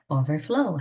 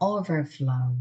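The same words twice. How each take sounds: First: The stress is on the last syllable. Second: The stress is on the first syllable. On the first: It is a verb meaning to spill over. "넘치다, 넘쳐 흐르다라는 동사가 됩니다" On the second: It is a noun meaning a flood. "범람"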